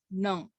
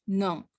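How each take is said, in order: The two takes are said the same way.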